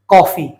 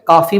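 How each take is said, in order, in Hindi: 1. पहला स्वर खुला 'aw' ध्वनि है। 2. पहला स्वर लंबा 'aa' ध्वनि है। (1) "क्या बोलते हैं?" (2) "ना तो हम उसे काफी बोलते हैं"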